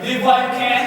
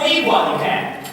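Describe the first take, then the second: First: "Live" said with a short i, as in give. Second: "Leave" with a long ee, pitched higher. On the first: Man puzzling over the record's lyric, saying "Live". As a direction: say "Live" short, not "Leave". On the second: Man testing the other lyric, saying "Leave" higher. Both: Shown as a demonstration. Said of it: "Is she saying".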